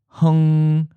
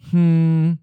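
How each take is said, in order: First: An H, then a short U vowel, then NG. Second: An H followed directly by a syllabic NG. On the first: "you add a short U sound to make it easier to say" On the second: "an H and a syllabic N-G"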